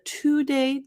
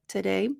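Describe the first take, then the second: First: The first syllable has a full 'to' vowel. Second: The first syllable is reduced to a quick 't'. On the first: The speaker calls it wrong. "instead of today" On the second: The speaker calls it right. "the t instead of to"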